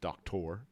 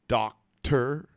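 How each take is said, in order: First: The last syllable sounds like 'or'. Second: The last syllable sounds like 'er'.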